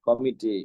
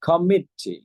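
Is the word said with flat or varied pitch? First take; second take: flat; varied. First: The word is said with level, flat pitch. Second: The pitch rises then drops across the word. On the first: This is how locals say it. The speaker calls it wrong. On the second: This is how native speakers say it. The speaker calls it right.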